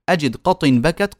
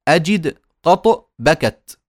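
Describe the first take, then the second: First: "قط" said as "qatin", with an n ending; tanween kasra on qat. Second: "قط" stopped on a bouncing t, no n; slow, separated "أجد قط بكت", each word stopped; qat without tanween. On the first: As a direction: link "قط" into "بكت" as qatin bakat. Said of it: "قط هذه تنوين كسرتين". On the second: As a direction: say "قط" as plain qat, pausing after it. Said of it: "وإلا هي قط". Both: Shown as a demonstration.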